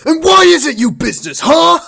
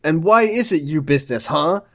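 First: Full high-pitched furious shout; as angry as possible. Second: Understated angry challenge; mildly angry. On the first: Shown as a demonstration. Co-host asks for Ricky's line at full anger, furious shout. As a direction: yell it in over-the-top fury. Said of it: "very as angrily as you can". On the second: A narrator's reading. Ricky challenges Amy in the story, mildly angry. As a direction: read it with just a touch of anger. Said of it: "Ricky asked angrily".

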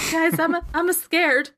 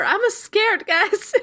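First: High whiny scaredy-cat whimper; trembling whiny yelps. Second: Much higher, shrill scaredy-cat yelp; trembling whiny yelps. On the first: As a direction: whine it like a frightened kid. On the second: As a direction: push the whine way up, panicky. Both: Acted. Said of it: "your scaredy cat friend".

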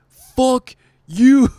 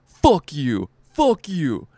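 First: Much louder and higher, the rant peaks; comic screaming at the host from the mic, hammed-up scream; mock screamed fuck you. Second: Louder, higher, imitating a furious comic; angry comic cursing out the host, mock yell. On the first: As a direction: scream it as the final blow. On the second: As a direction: hurl it at the host on stage. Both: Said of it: "Loses his shit on stage".

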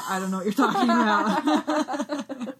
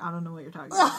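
First: Slow, drawn-out mock denial; insistent denial. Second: Said in the usual way. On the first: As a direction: repeat the denial slowly, hamming it up. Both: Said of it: "Peter just keeps being like".

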